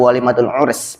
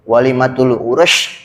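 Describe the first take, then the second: First: The last word ends with an s sound. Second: The last word ends with a sh sound. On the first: The speaker calls it right. "pakai sin" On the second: The speaker calls it wrong. "pakai shin"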